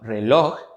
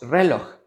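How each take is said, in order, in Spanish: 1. El acento está en la última sílaba. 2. El acento está en la primera sílaba. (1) "sino reloj" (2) "No decimos reloj"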